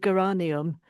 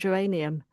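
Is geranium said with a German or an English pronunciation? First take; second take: German; English. First: It is pronounced in a German-sounding way. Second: It is pronounced in a plain English way. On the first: Someone else says it this way. "a friend who's German, she'll regularly refer to geranium" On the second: This is the usual way to say it. "rather than saying geranium"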